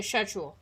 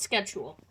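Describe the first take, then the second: First: "schedule" as SHED-jool; British schedule. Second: "schedule" starting with a hard SK, sked-jool; North American schedule. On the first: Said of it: "I live in Britain. I say schedule". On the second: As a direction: say "schedule" the Canadian way with SK. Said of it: "not schedule". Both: Shown as a demonstration.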